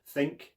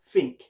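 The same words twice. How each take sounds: First: The word starts with a th sound. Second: The word starts with an f-like sound. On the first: "In my accent, I'd say the th sound" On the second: "taking it into a Cockney accent"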